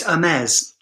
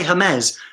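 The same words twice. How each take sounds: First: "Hermes" as er-MEZ, French style; French "Hermes" opening straight on the vowel; silent H. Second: "Hermes" as huh-MEZ, H sounded; English-style "Hermes" starting with a breathed H; H pronounced. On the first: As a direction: drop the H in "Hermes", stress on MEZ. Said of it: "I know it's Hermes". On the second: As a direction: say "Hermes" with an audible H, stress on MEZ. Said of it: "I say Hermes". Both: Shown as a demonstration.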